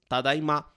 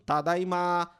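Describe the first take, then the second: First: The last syllable is short and plain. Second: The last syllable is drawn out long. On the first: It is the plain, normal greeting. "a forma normal dele é apenas tadaima" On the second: It adds some feeling to the greeting. "ele está prolongando essa última sílaba"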